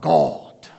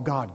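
First: It is said in an enunciated preacher voice. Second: It is said in an ordinary speaking voice.

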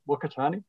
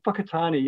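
First: The name begins with a w sound. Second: The name begins with an f sound. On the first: The speaker calls it wrong. "not Whakatane" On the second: The speaker calls it right. "Whakatane is the correct pronunciation"

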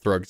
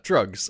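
First: The name starts with a TH sound. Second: The name starts with a plain T sound. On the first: The speaker calls it wrong. "that H just came right back in" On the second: The speaker calls it right. "He said it right once you correct him"

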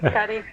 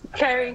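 First: The name is said with Spanish sounds. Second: The name is said with English sounds.

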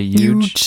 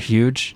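First: The word starts without any h sound. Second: The word starts with a clear h sound.

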